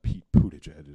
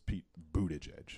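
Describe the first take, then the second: First: Buttigieg said with a popped P at the start; mispronounced surname. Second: Buttigieg begun with a soft B, not P; corrected surname. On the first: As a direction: say Buttigieg as if it began with Poo. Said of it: "I'm sure it's not". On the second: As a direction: say Buttigieg with a Boo at the start. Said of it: "It's Pete Buttigieg". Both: Shown as a demonstration.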